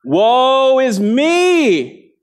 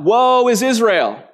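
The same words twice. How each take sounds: First: Very slow, high, loud "Woe is me"; a prophet's anguished cry, Woe is me. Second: Loud, slow Woe is Israel; mock cry of Woe is Israel; wrong quote said on purpose. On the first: Retold or imitated. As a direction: wail "Woe is me" stretched out, much higher and louder. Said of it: "and he cries out". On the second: Shown as a demonstration. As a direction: call out "Woe is Israel" with a drawn-out "Woe". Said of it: "No, I'm seeing shaking heads".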